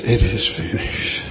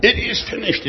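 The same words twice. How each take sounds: First: Low, spent delivery of a dying man's words; exhausted cry. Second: High-pitched triumphant declaration; cry of victory. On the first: Retold or imitated. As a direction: say it low, as if worn out and defeated. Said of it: "a cry of exhaustion". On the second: Shown as a demonstration. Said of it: "is a cry of victory".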